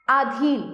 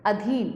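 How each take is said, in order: First: आधीन opening on a long "aa"; wrong long vowel. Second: Said in the usual way. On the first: Shown as a demonstration. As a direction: stretch the first vowel of आधीन to "aa-dheen". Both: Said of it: "आधीन अशुद्ध है".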